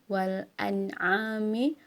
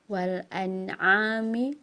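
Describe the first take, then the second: No difference in how they are said.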